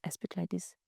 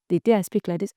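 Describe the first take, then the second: First: Much softer, nearly hushed; hushed demo of a soft voice. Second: Said in the usual way. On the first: Shown as a demonstration. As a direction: drop almost to nothing.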